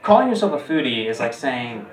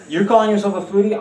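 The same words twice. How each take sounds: First: Said in the usual way. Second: Higher, fast, disbelieving rise; quick sneering you're calling yourself a foodie; incredulous mock question. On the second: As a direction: scoff at the word calling with a rising pitch. Mocking a self-described foodie.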